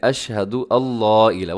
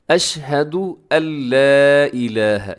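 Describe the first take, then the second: First: Thickened अल्ला in "अशहदु अल्ला इलाहा"; mistaken thick lam. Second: Slow "अशहदु अल्ला इलाहा" with a drawn-out, light l in अल्ला; measured teaching recitation, अल्ला kept light; thin lam recitation. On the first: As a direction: say अल्ला with a heavy, rounded l like the word Allah. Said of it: "वो भी ये mistake कर देते हैं". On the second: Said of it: "इदगाम के साथ आपने इसको बारीक रखना". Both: Shown as a demonstration.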